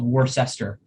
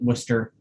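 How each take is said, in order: First: It is sounded out the way it is written. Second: It is said in the ordinary, standard way. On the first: "it maybe is spelled Worcester" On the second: "we pronounce it Worcester"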